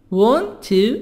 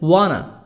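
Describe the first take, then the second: First: Both words are said fully and separately. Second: The words blend into one reduced form.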